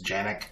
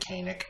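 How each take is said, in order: First: The name begins with a J sound. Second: The name begins with a hard K sound. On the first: This is the original Turkish way of saying it. The speaker calls it right. "the actual Turkish pronunciation is Janik" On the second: This is the common English way of saying it. The speaker calls it wrong. "A lot of people call it the Canik"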